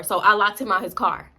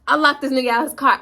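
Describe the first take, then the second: First: Said in the usual way. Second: Louder and higher, stress on locked; emphatic retelling. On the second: Retold or imitated. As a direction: punch it, louder. Repeats it with more force.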